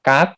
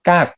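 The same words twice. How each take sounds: First: The syllable is said with a high tone. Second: The syllable is said with a falling tone. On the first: "กักไม้ตรี" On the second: "กักไม้โท"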